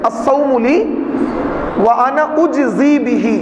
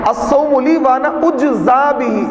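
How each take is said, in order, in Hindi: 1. क्रिया का अंत 'ee' स्वर से होता है। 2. क्रिया का अंत 'ah' स्वर से होता है। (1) "उज्जी पढ़ेंगे" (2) "इसको मजहूल पढ़ेंगे"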